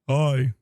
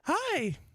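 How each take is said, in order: First: It is said in a lower-pitched voice. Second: It is said in a high-pitched voice. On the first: "Jen has a lower voice than that" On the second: "Nick's high voice"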